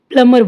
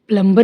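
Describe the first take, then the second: First: The m goes straight into the vowel, no b. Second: A b sound is heard after the m. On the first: The speaker calls it right. "तो इसको हम प्लम्बर बोलेंगे" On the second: The speaker calls it wrong. "प्लम्बर नहीं"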